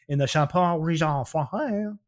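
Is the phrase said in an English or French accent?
French. It is said in a put-on French accent.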